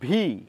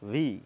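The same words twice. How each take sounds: First: The consonant is made with both lips together. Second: The consonant is made with upper teeth on lower lip. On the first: The speaker calls it wrong. "ভি উচ্চারণ করছি কিন্তু দুটো ঠোঁট দিয়ে" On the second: The speaker calls it right. "উপরের দাঁত এবং নিচের ঠোঁট"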